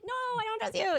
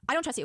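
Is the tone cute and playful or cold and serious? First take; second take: cute; serious. First: It is said in a cute, playful way. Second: It is said in a cold, serious way.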